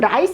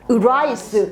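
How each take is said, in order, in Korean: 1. 이 단어는 L 같은 소리로 시작해요. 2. 이 단어는 영어 R 소리로 시작해요. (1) "라이스 하면 L이 나잖아" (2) "rice에서 R 발음을 딱 해놨어"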